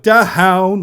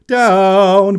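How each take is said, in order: First: The word starts with a breathy puff of air. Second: The word starts cleanly without extra breath. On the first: The speaker calls it wrong. "I did an aspirate H in the word down" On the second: The speaker calls it right. "It should have been down"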